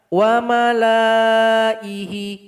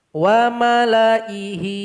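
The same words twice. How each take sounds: First: The vowel after the lam is held long. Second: The vowel after the lam is kept short. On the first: The speaker calls it wrong. "Salah kalau dibaca" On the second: The speaker calls it right. "Yang betul itu adalah lam ini kita pendekkan"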